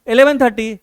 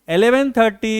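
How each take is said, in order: Both takes have the same delivery.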